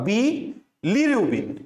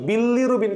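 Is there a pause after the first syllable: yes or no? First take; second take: yes; no. First: There is a short gap after the first syllable. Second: The whole word runs together without a gap. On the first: This keeps the spelling with a single l. The speaker calls it right. "একটু মাঝখানে gap দিবা" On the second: This invites the double-l misspelling. The speaker calls it wrong. "ওইটা করা যাবে না"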